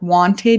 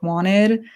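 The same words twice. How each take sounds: First: The middle consonant is a clear T sound. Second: The middle consonant sounds like a D. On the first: "you might not say like wanted" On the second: "T's become D's, ... you might say like wanted"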